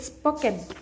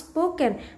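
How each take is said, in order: First: The first vowel is a single plain vowel. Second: The first vowel glides as a diphthong. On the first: The speaker calls it wrong. "the learners tend to pronounce it spoken" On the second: The speaker calls it right. "it ought to be pronounced spoken"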